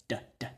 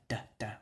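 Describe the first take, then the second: The two takes are said the same way.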